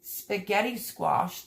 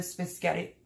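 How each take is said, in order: First: Slow, correctly sounded "spaghetti squash"; careful "spaghetti". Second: Fumbled, tongue-tied "spaghetti"; tripped-over "spaghetti". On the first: Host corrects her own slip, careful "spaghetti squash". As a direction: say "spaghetti squash" slowly and properly. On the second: Host trips over the squash's name, fumbled "spaghetti". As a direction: stumble over the word "spaghetti". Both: Real, not acted. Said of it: "try to say that the right way".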